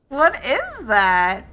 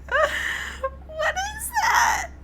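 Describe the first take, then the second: First: Loud, startled question. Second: Shrieked, much higher and louder; real shriek. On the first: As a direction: ask it in sudden alarm. Startled by the clip. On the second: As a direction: scream it out in laughing alarm. Shrieks at the clip. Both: Real, not acted.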